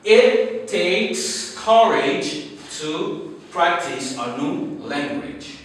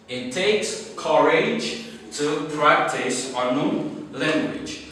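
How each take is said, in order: First: Slow, deliberate read of the motto; slow dictation. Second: Said in the usual way. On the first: Shown as a demonstration. Teacher reading the motto aloud to class, slowly. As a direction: spell it out slowly for learners. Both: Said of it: "Our M T for today is".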